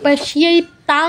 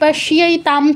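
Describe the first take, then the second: First: The word ends with an ng sound. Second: The word ends with an m sound. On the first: The speaker calls it wrong. "পাশিয়াই তাং বলতে পারবো না" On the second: The speaker calls it right. "প্রথম যেই পাশিয়াই তাম ছিল"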